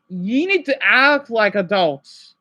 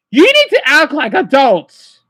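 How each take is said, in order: First: Slow, deliberate, dead-serious warning. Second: Louder, slow, stern demand with need stressed. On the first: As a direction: lay every word down slowly. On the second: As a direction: hammer the need home, louder. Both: Real, not acted. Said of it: "I'm being dead serious".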